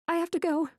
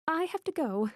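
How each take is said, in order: First: High, urgent panic; panicked. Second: High, urgent, repeating the plea; panicked repeat. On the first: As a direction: blurt it out in alarm. Panicked, wants to flee. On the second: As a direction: say it again in alarm. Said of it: "I repeat". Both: Acted.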